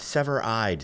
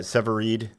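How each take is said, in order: First: The name ends with an 'eyed' sound. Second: The name ends with a 'reed' sound. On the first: The speaker calls it right. "Sever-eyed sounds so much better" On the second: The speaker calls it wrong. "Severeed is usually the go-to"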